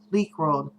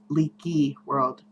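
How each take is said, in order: First: The first word has one syllable, leek. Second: The first word has two syllables, leaky. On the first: "I say leak world" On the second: "I have heard that pronounced leaky"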